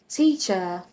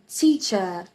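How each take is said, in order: Both takes have the same delivery.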